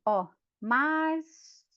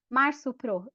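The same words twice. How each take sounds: First: "março" slowly stretched, the "rç" held as a long s; drawn-out março. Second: Said in the usual way. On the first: Shown as a demonstration. A pupil shows the teacher that "março" sounds with s, stretched slowly.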